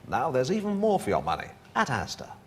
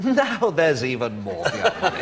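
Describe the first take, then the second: First: It is said plainly, with no laugh. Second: It is said with a laugh in the voice.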